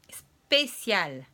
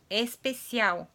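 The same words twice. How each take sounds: First: The word begins directly with an s sound. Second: The word begins with an added vowel sound. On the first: The speaker calls it right. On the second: The speaker calls it wrong. "Os lusófonos falam especial, que nem em português"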